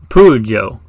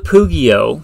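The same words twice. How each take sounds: First: The word is pronounced in an Italian way. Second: The word is pronounced in an English way.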